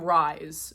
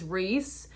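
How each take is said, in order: First: The vowel sounds like 'eye'. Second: The vowel sounds like 'ee'. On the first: The speaker calls it wrong. "I was calling him Rise for a little bit until they explained it" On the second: The speaker calls it right. "His name is Reese"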